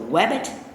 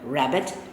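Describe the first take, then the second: First: The word begins with a W sound. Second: The word begins with an R sound. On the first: The speaker calls it wrong. "using the W for the R" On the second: The speaker calls it right. "Rabbit starts with the sound er"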